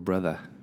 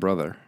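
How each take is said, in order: First: It is said in a New York accent. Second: It is said in a plain, everyday accent.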